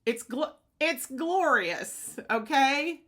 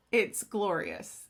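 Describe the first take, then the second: First: Slow, lifted, savoring "glorious"; drawn out with delight. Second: Said in the usual way. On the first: Real, not acted.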